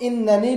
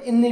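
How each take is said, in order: First: The word is said with an extra nun syllable. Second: The word is said without the extra nun syllable.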